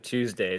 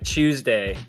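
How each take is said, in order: First: The word begins with a plain 't' sound. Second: The word begins with a 'ch' sound.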